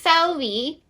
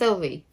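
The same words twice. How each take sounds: First: The name is said in a put-on Scottish accent. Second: The name is said in a plain accent. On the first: This is how the narrator said it. "They'd be like" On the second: This is the name itself. "Her name is Sylvie"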